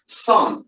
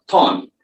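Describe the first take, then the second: First: "Thorn" said with a breathy th, no t; correct th. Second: "thorn" said as "torn" with a hard t; "thorn" starting with a t instead of th; wrong t sound. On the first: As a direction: say "Thorn" with th blown through the teeth, not a t. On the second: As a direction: say "thorn" with a hard t, the mistake to avoid. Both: Shown as a demonstration. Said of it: "not thorn".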